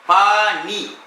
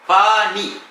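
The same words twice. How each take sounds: No difference in how they are said.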